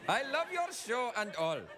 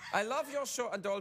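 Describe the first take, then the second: First: It is said in an Indian accent. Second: It is said in a Finnish accent. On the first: The speaker calls it wrong. "I'll just do Indian" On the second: The speaker calls it right. "that's a bit more like it"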